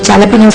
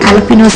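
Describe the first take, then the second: First: The word starts with a J sound. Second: The word starts with a vowel sound. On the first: Other people say it this way. "కొంతమంది జాలపినోస్ అంటారు" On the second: Some people say it this way. "కొంతమంది అలపినోస్ అంటారండి"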